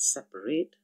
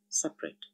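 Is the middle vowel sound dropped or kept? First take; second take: kept; dropped. First: The middle vowel sound is kept. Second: The middle vowel sound is dropped. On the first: "written as separate" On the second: "it's said separate"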